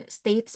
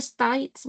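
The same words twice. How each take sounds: First: Said in the usual way. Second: "States" said as "stites", with an Australian vowel; Aussie-style "States", vowel like "eye"; Australian pronunciation. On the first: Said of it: "States pala yun". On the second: Retold or imitated. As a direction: mimic the client, "States" rhyming with "kites". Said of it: "Malay ko ba anong states?".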